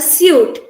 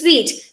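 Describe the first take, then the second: First: It rhymes with 'boot'. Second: It rhymes with 'feet'. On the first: The speaker calls it wrong. "we read it as a suit" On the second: The speaker calls it right. "the pronunciation is sweet. Like the taste sweet"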